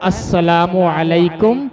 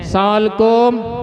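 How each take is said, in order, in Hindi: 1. अभिवादन का हर अक्षर पूरा बोला जाता है। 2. अभिवादन को एक छोटे, कटे हुए शब्द में समेट दिया जाता है। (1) "बल्कि सलाम क्या होता है" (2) "बहुत से लोग दूर से क्या देते हैं"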